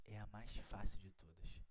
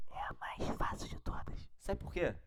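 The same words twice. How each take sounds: First: Said in the usual way. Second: Secretive whisper, sharing a trick. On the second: Shown as a demonstration. Teacher whispering the easy rule to students. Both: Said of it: "Vem comigo aqui, ó".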